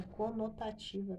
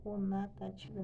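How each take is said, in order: First: Said in the usual way. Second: "conotativa" slipped into "conatativa"; "conotativa" misspoken as co-na-ta-ti-va; mispronounced. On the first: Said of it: "Eu falei errado, é conotativa". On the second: Real, not acted. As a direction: say "conotativa" with an a in the second syllable. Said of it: "Eu falei errado".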